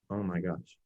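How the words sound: It is said in a flat monotone. The speaker calls it wrong. "as opposed to monotone"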